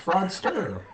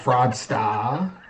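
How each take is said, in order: First: The final R sound is strongly pronounced. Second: The final R sound is dropped. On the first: "I say fraudster with the hard R" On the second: "It's not fraudsta"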